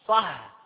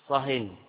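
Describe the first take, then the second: First: The word ends without an added n sound. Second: The word ends with an added n sound. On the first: Stop talking about this topic and talk of another. "صح يعني أسكت عن هذا الكلام" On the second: Stop talking entirely. "صهن هذا تنكير، أسكت مطلقا"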